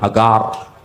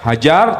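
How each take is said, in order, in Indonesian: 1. Huruf tengahnya bunyi G keras. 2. Huruf tengahnya bunyi J. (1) "Orang Ibrani itu nggak bisa ngomong huruf jim ... Jadi G"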